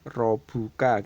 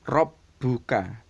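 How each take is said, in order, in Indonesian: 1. Bunyi b pendek dan tunggal. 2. Bunyi b ditahan panjang dan digandakan. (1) "tidak boleh robuka" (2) "Bacanya adalah rob buka"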